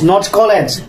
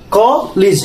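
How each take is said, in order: First: The first vowel is not an 'o' sound. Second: The first vowel is an 'o' sound. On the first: The speaker calls it wrong. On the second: The speaker calls it right. "Ko. It's a like o, like a o"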